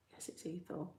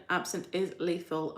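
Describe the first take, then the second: First: Whisper. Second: Said in the usual way. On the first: Shown as a demonstration.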